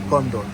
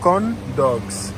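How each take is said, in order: First: The words blur together, sounding like condom. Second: Both words are distinct, clearly ending in dog. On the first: "Mais eux, ils prononcent ça condom" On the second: "Mais pour nous, c'est corn dogs"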